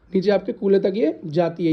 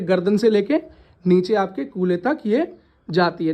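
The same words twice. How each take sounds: First: Said in the usual way. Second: Slowed down, spelling it out for the class; drawing out each word for the students. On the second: Shown as a demonstration. Teacher explaining the spine slowly.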